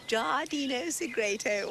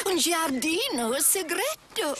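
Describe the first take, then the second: First: Giardino segreto repeated in a careful, slightly higher English-accented attempt at Italian; an English lady trying out Italian; tries the Italian. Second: Fluent Italian pronunciation of Un giardino segreto; Italian spoken with easy native polish; Italian phrase. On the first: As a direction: copy giardino segreto, savouring the foreign words. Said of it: "I must remember that beautiful phrase". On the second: Real, not acted. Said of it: "how lovely to be able to speak Italian like that".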